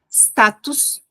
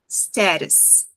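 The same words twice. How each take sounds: First: The word is articulated heavily and stiffly. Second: The word is articulated lightly with relaxed muscles. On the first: The speaker calls it wrong. "não é quadrado e pesado" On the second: The speaker calls it right. "leve, musculatura bem preguiçosa"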